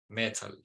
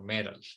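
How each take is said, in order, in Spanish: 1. Se dice con acento no americano. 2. Se dice con acento americano.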